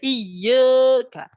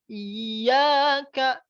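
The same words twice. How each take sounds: First: The vowel after y stays spread, mouth barely opening. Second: The vowel after y is open, mouth wide. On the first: The speaker calls it wrong. "Jangan sampai iyyaka ... itu yang salah" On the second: The speaker calls it right. "sebelum berpindah ke huruf K itu mulutnya dibuka"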